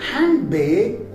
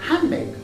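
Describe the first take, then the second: First: The d sound is clearly pronounced. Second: The d sound is left out. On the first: The speaker calls it wrong. "we don't say handbag" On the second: The speaker calls it right. "rather we say handbag"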